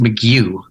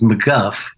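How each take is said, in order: First: The name ends with a 'goo' sound. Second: The name ends with a 'guff' sound. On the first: The speaker calls it right. "the name's actually pronounced McGew" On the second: The speaker calls it wrong. "I was always suspicious that it was it was McGuff"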